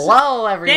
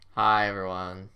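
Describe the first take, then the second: First: It is said with lively emotion. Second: It is said flatly, with little emotion.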